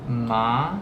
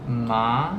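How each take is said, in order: First: The pitch rises from middle to high. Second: The pitch rises from middle to high.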